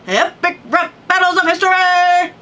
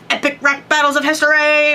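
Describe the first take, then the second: First: It is announced loudly with dramatic energy. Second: It is said in a plain, flat way.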